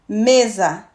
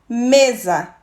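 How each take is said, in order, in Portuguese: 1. A vogal final é fraca e átona. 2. A vogal final é fraca e átona.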